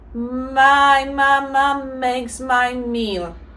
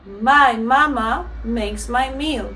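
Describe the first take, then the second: First: The sentence is said at a faster pace. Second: The sentence is said at the fastest pace. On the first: "so I go faster" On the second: "faster, and then at the same time more natural"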